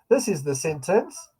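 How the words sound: The pitch stays up at the end. More words seem to follow. The speaker calls it wrong. "as if there's more words"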